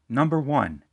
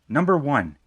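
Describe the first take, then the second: No difference in how they are said.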